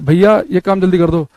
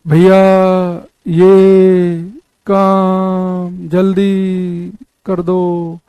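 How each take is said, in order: First: It is said in a plain, normal voice. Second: It is said drawn out, imitating an echo.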